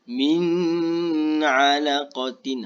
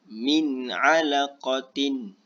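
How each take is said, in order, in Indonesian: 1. Huruf nun ditahan dengan dengung sengau. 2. Huruf nun diucapkan dengan jelas, tanpa dengung sengau. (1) "tak perlu nak, kena nak dengungkan ... salah" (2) "baca biar jelas"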